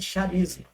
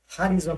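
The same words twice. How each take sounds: First: The word begins with an 'sh' sound. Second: The word begins with an 'h' sound. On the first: The speaker calls it wrong. "Aí a pessoa vê escrito charisma e pronuncia charisma" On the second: The speaker calls it right. "Puxando como se fosse ha"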